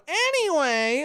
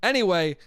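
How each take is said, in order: First: High, drawn-out "anyway"; mocking self-impression. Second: Said in the usual way. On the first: Host mocking his habit in conversation, exaggerated self-impression. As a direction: exaggerate your own verbal tic in a high voice. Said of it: "I keep going".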